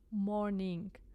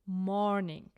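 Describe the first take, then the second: First: Both syllables are equally loud. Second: The first syllable is loud and exaggerated. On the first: The speaker calls it wrong. "If we pronounce both syllables equally loud" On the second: The speaker calls it right. "pronounce it loud and exaggerate the first syllable"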